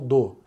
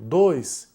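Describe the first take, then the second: First: Only the first part of the word is said. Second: The whole word is said, with its final sound. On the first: The speaker calls it right. "a gente costuma pegar só o do" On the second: The speaker calls it wrong. "em vez de falar dois"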